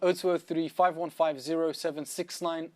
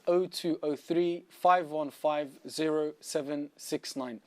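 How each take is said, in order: First: The number is said at normal speed. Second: The number is said more slowly.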